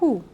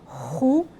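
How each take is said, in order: First: The opening h sound is soft and breathy. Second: The opening h sound is harsh and strong. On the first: The speaker calls it right. "de uma maneira suave, como se estivesse só respirando" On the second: The speaker calls it wrong. "não é hu"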